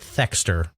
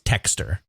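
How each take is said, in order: First: The name begins with a 'th' sound. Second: The name begins with a plain 't' sound. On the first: This is how it would be said in the US. "We'd probably pronounce it Thexter" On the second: This is how it is said in Japan. "with the way the Japanese pronounced it, it's Techster"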